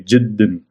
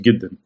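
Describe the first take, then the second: First: The word begins with a soft J sound. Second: The word begins with a hard G sound. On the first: This is the formal standard form. "in the Fusha we say jiddan" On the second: This is the colloquial dialect form. "its pronunciation is giddan"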